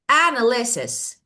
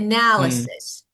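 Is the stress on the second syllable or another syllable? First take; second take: another syllable; second syllable. First: The stress is not on the second syllable. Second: The stress is on the second syllable. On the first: The speaker calls it wrong. "now I want to change the stress to see how it works... It's wrong" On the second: The speaker calls it right. "So the stress is on the second part"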